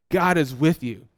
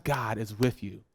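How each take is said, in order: First: Said in the usual way. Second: Hushed reassurance. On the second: Acted. Pastor hushed to church, soft and low. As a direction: drop to a soft, low murmur.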